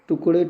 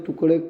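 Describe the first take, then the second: Both takes have the same delivery.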